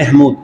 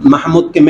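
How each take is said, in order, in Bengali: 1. প্রথম স্বরধ্বনিটি একটি 'e' ধ্বনি। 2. প্রথম স্বরধ্বনিটি একটি খোলা 'a' ধ্বনি।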